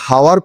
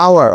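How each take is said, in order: First: "হাওয়ার" with an audible H at the start; H sounded. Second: "আওয়ার" starting straight on the vowel; silent H. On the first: Teacher showing students the mistake, "হাওয়ার" with H sounded. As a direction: mispronounce it as "হাওয়ার", voicing the silent H. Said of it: "উচ্চারণ কিন্তু আমরা হাওয়ার করছি না". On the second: Teacher showing the correct hour, "আওয়ার" with silent H. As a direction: drop the H completely in "আওয়ার". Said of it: "এইচ এর উচ্চারণ এখানে silent থেকে যাচ্ছে". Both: Shown as a demonstration.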